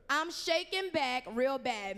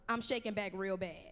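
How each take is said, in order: First: Slow, leaning hard on "real bad"; emphasis on real bad. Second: Said in the usual way. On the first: Shown as a demonstration. Preacher teaching the youth a catchphrase, slow with "real bad" stressed. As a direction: stretch it out and punch "real bad". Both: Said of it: "Tell them it's emphasis on the real bad".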